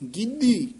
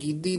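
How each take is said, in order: First: The word is said without a d sound. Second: The word is said with a d sound. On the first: The speaker calls it right. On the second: The speaker calls it wrong.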